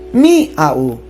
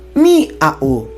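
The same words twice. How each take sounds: First: The stress falls on the i. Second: The stress falls on the i.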